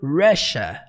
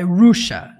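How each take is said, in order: First: The first vowel is not an 'oo' sound. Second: The first vowel is an 'oo' sound. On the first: The speaker calls it right. "é mais pro Russia" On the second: The speaker calls it wrong. "não é som de U, não é Russia, não"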